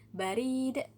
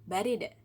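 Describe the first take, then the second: First: The vowel is said long. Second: The vowel is said short. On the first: It means post or mail. "tawilah, panjang" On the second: It means cold. "Qasiroh ya, pendek"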